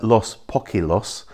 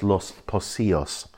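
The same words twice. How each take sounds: First: Los Poquilos as POCK-ee-los, K and L sounds; as it looks. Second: Los Pocios as los po-SEE-os; actual pronunciation. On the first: Guide showing the misleading spelling, anglicised pronunciation. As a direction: read Poquilos with a hard K and plain L. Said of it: "So it looks like". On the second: Guide correcting the beach name, Spanish pronunciation. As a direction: say Pocios with S, double L as Y. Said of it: "it's actually pronounced". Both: Shown as a demonstration.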